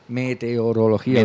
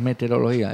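First: The word is said slowly with every sound clear. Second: The word is said quickly with sounds blurred. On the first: The speaker calls it right. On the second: The speaker calls it wrong.

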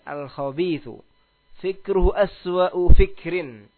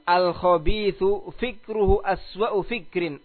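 First: The sentence is spoken slowly and deliberately. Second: The sentence is spoken at a normal pace.

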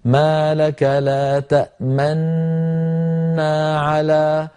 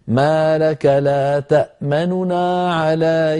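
First: The two n sounds merge into one doubled n. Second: The first n is voiced quickly with lowered voice. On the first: "تدغم نونه في النون التي بعدها ... يضم القارئ شفتيه" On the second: "نخطف الحرف خطفا ونسرع عنده مع خفض لصوته قليلا"

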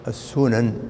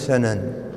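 First: The first vowel is a 'u' sound. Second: The first vowel is an 'a' sound. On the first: This is the well-known reading. "السنن هي المشهورة بالضم" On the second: This is an allowed alternative reading. "ويجوز أن تكون سنن"

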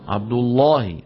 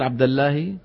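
First: The L in Allah is pronounced heavy and thick. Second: The L in Allah is pronounced light and thin. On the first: The speaker calls it right. "شو لازم يقول؟" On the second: The speaker calls it wrong. "ترقيقها في محل التفخيم"

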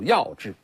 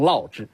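First: The first syllable is pronounced yao. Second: The first syllable is pronounced lao. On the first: This is an old-style reading that keeps the rhyme. "有一种古读法有一种延续性的老派读法是钟鼓药之" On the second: This is another old reading that some older scholars use. "有些老先生说读成烙之"

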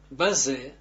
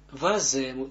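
First: The word starts with a b sound. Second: The word starts with a v sound. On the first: The speaker calls it wrong. "waze en niet baze" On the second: The speaker calls it right. "waze, moeten we zeggen"

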